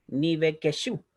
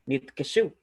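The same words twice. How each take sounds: First: "nivekeshu" with an added "e" after "niv"; extra vowel, mistaken. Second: "nitkeshu" with no vowel after the first syllable's consonant; silent first sheba. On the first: Teacher showing what not to say, "nivekeshu" with a voiced sheba. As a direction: sound out "ni-ve-ke-shu" with four syllables. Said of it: "y no nivekeshu". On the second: Teacher showing the rule, "nitkeshu" with the sheba silent. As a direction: close "nit" straight onto "keshu" in "nitkeshu". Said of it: "Por eso yo pronuncio". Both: Shown as a demonstration.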